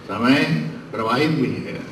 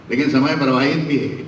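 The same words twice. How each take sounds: First: समय प्रवाहित भी है said much softer, falling on प्रवाहित; soft echo. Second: Said in the usual way. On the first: Real, not acted. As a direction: let the maxim fade away. Orator repeats maxim. (धीमी गूंज की तरह)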